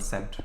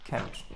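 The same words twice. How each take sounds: First: The word begins with a soft S sound. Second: The word begins with a hard K sound. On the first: This is the usual modern pronunciation. "rather than" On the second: This follows the Latin pronunciation. "in the Latin pronunciation, Like the C is pronounced as a K"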